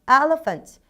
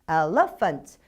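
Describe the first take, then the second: First: The stress is on the first syllable. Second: The stress is on the second syllable. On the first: The speaker calls it right. "첫 번째가 무조건 답이라고 생각하시면 돼요" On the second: The speaker calls it wrong. "뒤에 두 가지는 조금 뭔가가 이상한 듯 합니다"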